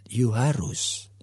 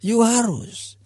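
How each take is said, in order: First: Firm father. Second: Insisting father. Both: Acted. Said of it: "papanya mengatakan".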